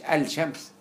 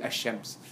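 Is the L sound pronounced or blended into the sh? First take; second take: pronounced; blended. First: The l sound is pronounced before sh. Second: The l sound merges into a doubled sh. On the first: The speaker calls it wrong. "ما قلتش الشمس" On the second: The speaker calls it right. "بقول الشمس اللام ده مرتها في الشين"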